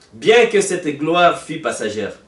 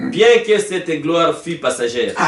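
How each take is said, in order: The two takes are said the same way.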